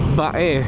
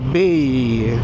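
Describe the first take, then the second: First: It is said the local way, unlike English 'bay'. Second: It is said like the English word 'bay'. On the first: This is how people here say the name. "pinopronounce namin dito as Bae" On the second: This follows the written spelling. "Spelled B A Y"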